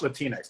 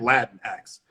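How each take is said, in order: First: The word ends sounding like Kleenex. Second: The word does not sound like Kleenex. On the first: The speaker calls it wrong. "that sounds like Kleenex" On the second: The speaker calls it right.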